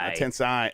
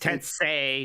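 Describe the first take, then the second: First: The last syllable does not rhyme with Sensei. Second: The last syllable rhymes with Sensei. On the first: The speaker calls it wrong. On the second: The speaker calls it right. "It's Tensei, not"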